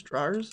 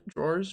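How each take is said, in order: First: "Drawers" with an "ah" vowel, like "drah-erz"; trying a pronunciation. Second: "Drawers" as one syllable, like "drorz"; trying a pronunciation. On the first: Streamer testing how drawers is said, "drah-erz" pronunciation. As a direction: say "Drawers" as two-part "DRAH-erz", questioning. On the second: Streamer testing how drawers is said, "drorz" pronunciation. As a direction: say "Drawers" to rhyme with "doors", questioning. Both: Shown as a demonstration. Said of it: "How do you guys say drawers?".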